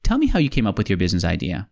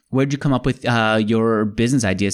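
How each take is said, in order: First: Steady directive statement; stated as a request. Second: Rising question tune on "Where'd you come up with your business idea?"; plain curious question; asked as a question. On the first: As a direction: make "Tell me how you came up with your business idea." a calm falling statement. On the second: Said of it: "instead of saying". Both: Shown as a demonstration.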